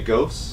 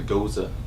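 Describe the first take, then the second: First: It is said as one syllable, like 'ghost'. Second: It is said as two syllables, ending in 'za'. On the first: This is the habitual way the speakers have said it. The speaker calls it wrong. "We say ghosts" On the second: This is the proper pronunciation of the beer style. The speaker calls it right. "I found out it's actually goza"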